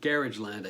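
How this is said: It is said with an English pronunciation.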